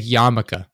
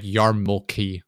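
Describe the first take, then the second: First: Said in the usual way. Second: "yarmulke" read just as written, R and L voiced; spelling pronunciation. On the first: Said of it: "written how it sounds". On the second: Shown as a demonstration. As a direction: say "yarmulke" slowly as "yar-mul-kee", every letter sounded. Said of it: "It's written like yarmulke".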